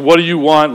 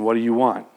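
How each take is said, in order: First: It sounds annoyed and impatient. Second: It sounds warm and caring.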